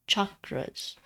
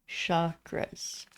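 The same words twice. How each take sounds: First: The word begins with a hard ch sound. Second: The word begins with a soft sh sound. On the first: The speaker calls it right. "it's actually a C H, which is ch" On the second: The speaker calls it wrong. "Everybody loves to pronounce it as an S"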